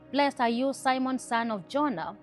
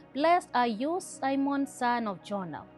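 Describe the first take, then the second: Both takes have the same delivery.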